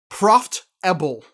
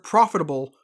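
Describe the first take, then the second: First: The word is pronounced the way a child would. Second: The word is pronounced in an ordinary adult way.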